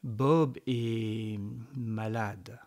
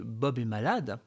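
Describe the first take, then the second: First: It is said slowly, with weight. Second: It is said at a normal pace.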